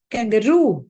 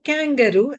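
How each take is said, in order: First: Kangaroo with ROO punched, long and falling; stress on ROO. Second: Kangaroo wrongly stressed on KAN; stress on first syllable. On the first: Teacher correcting learners, stress on ROO in kangaroo. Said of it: "The stress is on roo". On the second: Teacher showing the wrong way, stress on KAN in kangaroo. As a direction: hit KAN in kangaroo, ROO left weak. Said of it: "It's not kangaroo". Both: Shown as a demonstration.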